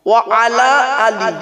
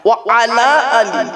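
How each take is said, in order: No difference in how they are said.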